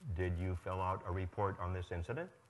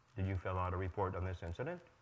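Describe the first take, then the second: The two takes are said the same way.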